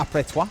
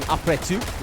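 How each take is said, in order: First: "toi" said as twah; correct French. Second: "tout" said with an oo vowel; mispronounced French. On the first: Caster giving the correct French, "toi" said as twah. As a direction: end on a wah vowel in "toi". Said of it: "which is what it should be". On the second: Caster confessing a French slip, mispronounced "tout". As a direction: say "tout" as too, the wrong word. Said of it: "made the cardinal sin of saying". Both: Shown as a demonstration.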